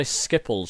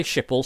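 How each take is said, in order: First: Schiphol said with a hard SK, "SKIP-ul"; Dutch-style Schiphol. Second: Anglicised Schiphol, "SHIP-ul"; English-style Schiphol. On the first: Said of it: "Schiphol is the Dutch way". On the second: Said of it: "Schiphol is the English way". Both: Shown as a demonstration.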